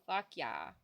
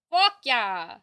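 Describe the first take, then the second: First: Said in the usual way. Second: "Fuck yeah!" shouted louder; loud cheer. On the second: Shown as a demonstration. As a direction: yell it the second time.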